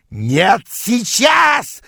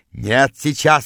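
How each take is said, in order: First: Very high shout on the last word; wild yell. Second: Moderate narrated yell. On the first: Rival rushing in pursuit, yelling. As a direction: scream the refusal, leaping up in pitch. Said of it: "завопил он". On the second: Rival chasing the narrator, yelling his refusal. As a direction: insist with a mild shout. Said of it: "орал он". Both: A narrator's reading.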